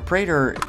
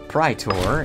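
First: The word is said with an English pronunciation. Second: The word is said with a Latin pronunciation.

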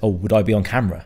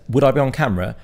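First: The question sounds reluctant and worried. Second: The question sounds eager and keen. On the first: The speaker does not want to be on camera. "But I think he heard it as" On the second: The speaker wants to be on camera. "I phrased it as"

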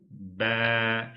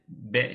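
First: The letter sound is drawn out and lengthened. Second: The letter sound is short and clipped. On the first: The speaker calls it right. "B şeklinde bir uzatma şeklinde okuyoruz" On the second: The speaker calls it wrong. "B şeklinde değil"

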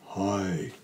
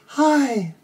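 First: It is said at a low pitch. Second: It is said at a high pitch. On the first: "say it low, like this, a low sound, a low pitch" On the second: "let's do a high voice in your head voice"

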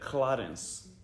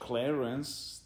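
First: The name is said with a Serbian accent. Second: The name is said with an English accent. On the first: The speaker calls it right. "That was me thinking Serbian" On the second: The speaker calls it wrong. "if you say on English Clarence"

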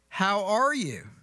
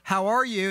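First: It is said warmly, as a real question. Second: It is said flatly, as a routine greeting. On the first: The speaker truly wants to know. The speaker calls it right. "a legitimate, authentic question" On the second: The speaker is not really asking. The speaker calls it wrong. "And that's a statement"

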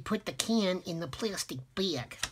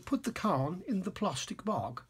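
First: It is said in a New York accent. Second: It is said in a British accent.

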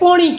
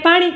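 First: The first vowel is a rounded 'o' sound. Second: The first vowel is an open 'aa' sound. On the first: "સુરતી લોકો એને પોણી કહે" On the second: "આપણે પાણીને પાણી કહીએ"

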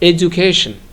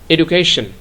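First: The middle consonant sounds like a 'j'. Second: The middle consonant sounds like a plain 'd'.

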